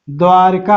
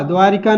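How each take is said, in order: First: द्वारका said without an i, dvaar-kaa; द्वारका in two syllables, dvaar-kaa; correct form. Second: द्वारिका said with an i sound, dvaa-ri-kaa; द्वारिका as the wrong spelling, with the i in the middle; wrong form. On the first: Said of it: "द्वारका होता है". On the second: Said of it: "द्वारिका नहीं होता है". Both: Shown as a demonstration.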